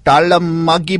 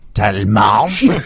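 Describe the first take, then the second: First: The name is said in an Indian English accent. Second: The name is said in a French accent. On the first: A call-centre worker is reading the name. "customer service calls, you know, that have been outsourced to India" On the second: Someone is showing off the French reading of the name. "people pulling rank on the French pronunciation"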